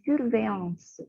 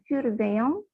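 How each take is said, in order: First: It ends with a clearly pronounced s sound. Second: It ends on a nasal vowel, no final s. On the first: The speaker calls it right. "di belakang itu masih ada c dan e, jadi ya harus tetap dibunyikan" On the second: The speaker calls it wrong. "bukan surveillant"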